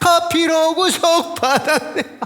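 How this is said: The first word starts strong, in a regional accent. It sounds like redeemed by coffee.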